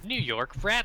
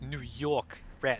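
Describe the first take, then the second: First: It is said in a plain, neutral accent. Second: It is said in a strong New York accent. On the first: The speaker calls it wrong. "I did not say that in the right accent" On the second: The speaker calls it right. "That is New York Rat"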